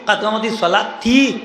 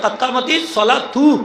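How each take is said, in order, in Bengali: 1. শেষ শব্দটি 'ti' ধ্বনি দিয়ে শেষ হয়। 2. শেষ শব্দটি 'tu' ধ্বনি দিয়ে শেষ হয়। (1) "অনেক কয় কাতকামতি সলা তি" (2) "আরবি গ্রামারে তু হইতো ফাইল হিসাবে"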